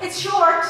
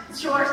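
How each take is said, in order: First: It's short called out louder and higher; emphatic. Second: Said in the usual way. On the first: Real, not acted. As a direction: stress it's short with a sudden push.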